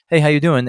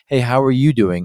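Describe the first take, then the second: First: It sounds quick and offhand. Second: It sounds caring and attentive.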